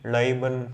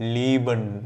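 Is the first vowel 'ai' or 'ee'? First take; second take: ai; ee. First: The first vowel is an 'ai' diphthong. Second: The first vowel is a long 'ee'. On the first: The speaker calls it wrong. "அது மாதிரி படிக்கிற கன்ஃபியூஷனே கிடையாது" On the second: The speaker calls it right. "ஐக்கு அப்புறம் இ வந்தால் நம்ம இ சொல்லணும்"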